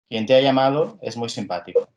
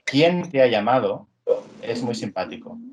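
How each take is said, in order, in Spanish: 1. La palabra quien es átona, dicha como una afirmación seguida. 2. La palabra quien es tónica, dicha como pregunta. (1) "sin acento" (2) "ahora imaginadla con acento"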